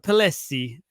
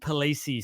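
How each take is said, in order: First: The name is said with Italian pronunciation. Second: The name is said with Australian pronunciation. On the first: "he's an Italian, so I'm going to pronounce this correctly" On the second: "the Aussies will call him Jason Palesi"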